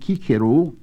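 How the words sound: It uses the classical Latin pronunciation. "What would have been Cicero to the classical speaker"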